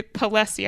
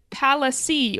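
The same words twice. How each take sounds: First: "Palessi" with a weak first syllable and stressed LESS; second-syllable stress. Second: "Palessi" with a short open PAL, then a light uh-see; first-syllable stress. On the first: Podcaster offering another guess, "Palessi" stressed in the middle. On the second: Podcaster guessing a store name, "Palessi" stressed on the first syllable. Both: Shown as a demonstration. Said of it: "not sure how they pronounced it".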